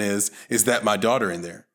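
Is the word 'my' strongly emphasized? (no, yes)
no. The word 'my' carries no special emphasis. "the first one"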